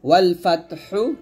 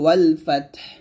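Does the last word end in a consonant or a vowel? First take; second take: vowel; consonant. First: The last word ends with a short vowel. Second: The last word ends with a bare consonant.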